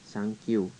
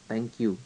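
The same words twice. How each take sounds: First: It is pronounced with Japanese sounds. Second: It is pronounced the English way. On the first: "dia bisanya bilang thank you" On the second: "orang Jepang nggak bisa bilang thank you"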